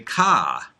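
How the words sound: The final r is dropped, Northeastern style.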